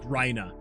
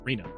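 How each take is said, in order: First: The first syllable sounds like 'rye'. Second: The first syllable does not sound like 'rye'. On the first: The speaker calls it wrong. "I want to pronounce it Rye, like Rhina" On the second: The speaker calls it right. "that makes a lot more sense"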